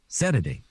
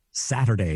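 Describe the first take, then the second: First: "Saturday" said as "Sederday"; imitated mispronunciation. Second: Said in the usual way. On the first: Imitating radio voice who couldn't say it, mispronounced "Saturday". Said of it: "It was always Saturday". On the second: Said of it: "he couldn't say Saturday".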